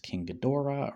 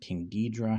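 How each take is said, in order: First: The name is said with three syllables. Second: The name is said with two syllables. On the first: "I usually do say Ghidorah" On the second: "but Ghidra I can see too"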